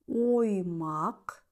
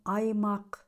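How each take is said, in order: First: The first vowel is a full O sound. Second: The first vowel is reduced to an A sound. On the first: The speaker calls it right. "звук О в безударных слогах всегда произносится как О" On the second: The speaker calls it wrong. "а не"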